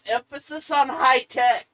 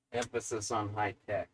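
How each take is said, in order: First: "high tech" punched high and loud; "high tech" called out high and emphatic; stress on high tech. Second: "high tech" very low and soft; "high tech" understated, deep in pitch and falling; hushed stress on high tech. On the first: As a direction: hit "high tech" hard, pitched up. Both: Shown as a demonstration.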